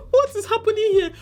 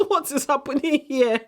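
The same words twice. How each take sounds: First: Squealed high in disbelief; what is happening here, pitched way up; outraged shriek of disbelief; shocked disbelief. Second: Incredulous. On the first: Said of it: "repeated take". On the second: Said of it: "repeated with higher pitch". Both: Real, not acted.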